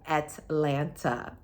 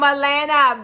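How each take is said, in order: First: Atlanta is said with every sound clearly enunciated. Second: Atlanta is said in a relaxed, casual way. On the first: "For those of you that need the annunciation" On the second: "for those of you that don't like the way I say Atlanta"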